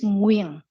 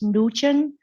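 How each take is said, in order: First: The name is said like 'Nguyen'. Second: The name is said like 'Nugent'. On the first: The speaker calls it right. "it's Nguyen" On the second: The speaker calls it wrong. "a lot of people they might pronounce as Nugent, uh, but it's not correct"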